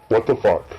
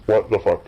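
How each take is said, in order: Both takes have the same delivery.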